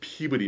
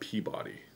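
First: Peabody is said the local New England way. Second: Peabody is said the way outsiders say it. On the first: The speaker sounds like a native of the area. The speaker calls it right. "if you want to come here and make people think that you're originally from here" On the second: The speaker sounds like someone from elsewhere. The speaker calls it wrong. "It's not Peabody"

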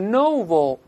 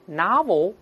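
First: The first vowel is a rounded o sound. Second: The first vowel is an open a sound. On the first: "英国人读是novel" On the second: "美音中这个发音变化古怪，一个o 变成a"

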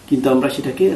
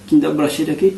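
Both takes have the same delivery.

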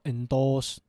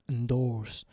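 First: The R sound after the vowel is dropped. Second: The R sound after the vowel is pronounced. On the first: The speaker calls it wrong. "Not endorse" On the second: The speaker calls it right. "Don't forget the R if you want to say in American accent"

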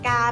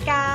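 First: The word is said on a level mid tone. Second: The word is said on a high tone. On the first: "กาเป็นเสียงสามัญ" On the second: "เสียงตรี"

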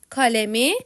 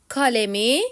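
Both takes have the same delivery.

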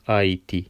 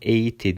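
First: The two vowels are said as separate sounds. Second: The two vowels merge into one e sound. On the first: The speaker calls it right. "Trem olduğu için AIT şeklinde okuyoruz" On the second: The speaker calls it wrong. "Biz bunu EIT diye okumuyoruz"

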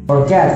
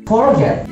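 First: The stress is on the last syllable. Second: The stress is on the first syllable. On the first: The speaker calls it right. "forgetnya yang terakhir ini yang ditekan" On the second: The speaker calls it wrong. "jangan forget, salah pembacaannya"

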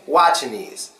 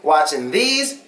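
First: The th blends into the n, like 'knees'. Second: The th sound is clearly pronounced after -ing. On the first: "watching these becomes watching knees" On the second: "Instead of saying watching these"

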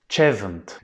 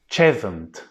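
Both takes have the same delivery.

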